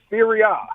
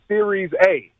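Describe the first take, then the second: First: The first word ends without any s sound. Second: The first word ends with an added s sound. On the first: The speaker calls it right. "We pronounce it Serie A" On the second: The speaker calls it wrong. "You said Series A"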